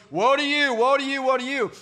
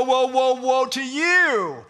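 First: Each woe stressed and ringing, mildly proclaimed; solemn woe. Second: Loud, drawn-out woe, woe, woe to you, slow; dramatic woe. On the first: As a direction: give the woe a lightly dramatic weight. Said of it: "seven statements where he goes". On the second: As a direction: boom out each woe slowly like a prophet. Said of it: "I'm gonna give you the woe". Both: Shown as a demonstration.

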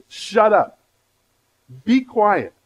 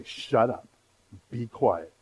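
First: Emphatic command. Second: Soft, low shut up and be quiet; quiet inner command. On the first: Preacher voicing Jesus silencing the demon, loud and emphatic. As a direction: bark it out like Jesus rebuking the demon. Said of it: "He means that emphatic". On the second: Believer silencing distracting inner voices, quiet and low. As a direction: say it firmly under your breath to yourself. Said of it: "you need to imitate Jesus". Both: Shown as a demonstration.

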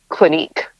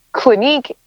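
First: Said in the usual way. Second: Clinique lifted high with a rise; rising emphasis. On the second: Real, not acted. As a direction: repeat Clinique higher, as if underlining it. Names brand, then repeats it.

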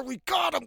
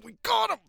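First: Excited. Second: Triumphant shout. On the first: Pulling kid up onto shore. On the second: Friends hauling the kid back onto shore, shouting in triumph. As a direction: yell it out as you haul him up. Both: Retold or imitated.

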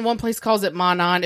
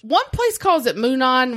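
First: Monon said MOH-non, short and lower. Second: Moonon said MOO-non with a long oo. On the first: Telling listeners the other name, short Monon. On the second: Telling listeners the two ways, long-oo Moonon. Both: Shown as a demonstration.

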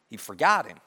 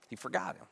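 First: Said in the usual way. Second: Much softer, letting it sink in; hushed repeat. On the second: Real, not acted. Preacher repeats that the cupbearer forgot Joseph, hushed. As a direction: drop the volume right down. Line repeated softly for effect.

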